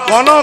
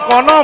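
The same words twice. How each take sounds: No difference in how they are said.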